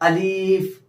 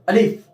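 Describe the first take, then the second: First: The vowel is stretched out long. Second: The word is said very quickly. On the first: "इसको खींच देते हैं" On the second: "बहुत जल्दी करते हैं"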